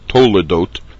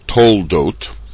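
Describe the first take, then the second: First: A short vowel sounds between the l and d. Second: The l runs straight into d without a vowel. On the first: "to hear the name of the Sedra Toledot" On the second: "rather than Toldot"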